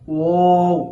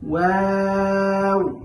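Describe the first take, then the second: First: The letter is sounded thick and heavy. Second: The letter is sounded thin and light. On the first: The speaker calls it wrong. "অনেকেই একটা ভুল করে থাকি, সেটা হলো ওয়াও ওয়াও এরকম করে থাকি" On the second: The speaker calls it right. "ওয়াও হরফটি খুবই পাতলা"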